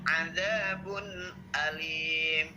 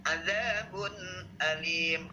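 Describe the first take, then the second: No difference in how they are said.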